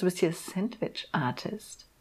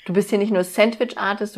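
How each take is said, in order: First: Sandwich-Artist said soft and slow, grandly; stress on Artist. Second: Said in the usual way. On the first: Shown as a demonstration. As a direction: say Sandwich-Artist slowly and softly, like a title.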